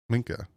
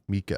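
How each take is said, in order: First: A quick, light n sound comes before the k. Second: No n sound comes before the k. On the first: "I'm saying Minka, but I'm saying it quickly. You can hear the N in there" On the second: "That's how I would say M E E K A H"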